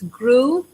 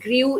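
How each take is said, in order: First: The vowel is a plain oo sound. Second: The vowel is not a plain oo sound. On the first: The speaker calls it right. "it's grew" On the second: The speaker calls it wrong. "it is not grew"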